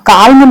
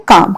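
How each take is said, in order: First: काल्म with the L sounded, kaalm; wrong pronunciation. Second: काम said as kaam, the L left silent; right pronunciation. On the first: Teacher showing students the wrong way: काल्म with the L sounded. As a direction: say काल्म with a clear L before the M, as the mistake. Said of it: "काल्म नहीं बोलेंगे इसको". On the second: Teacher showing students the right way: काम without the L. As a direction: say काम with a long open a and no L sound. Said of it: "हम इसको pronounce करेंगे काम". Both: Shown as a demonstration.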